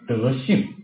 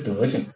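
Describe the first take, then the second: First: The second syllable carries its full tone. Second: The second syllable is light and toneless. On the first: It names moral virtue. The speaker calls it right. "我们是用字正腔圆的" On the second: It sounds like an insult about someone's behavior. The speaker calls it wrong. "不是轻声的，不是德性"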